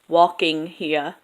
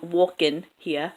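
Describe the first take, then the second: First: The final g sound of walking is pronounced. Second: The final g sound of walking is dropped. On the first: "instead of" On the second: "you're going to lose that ending G in ing"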